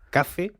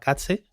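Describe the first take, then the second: First: The middle consonant is a plain z sound. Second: The middle consonant sounds like ts, not z. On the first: The speaker calls it right. "para que nos entendamos" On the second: The speaker calls it wrong. "la Z japonesa la pronuncia fatal"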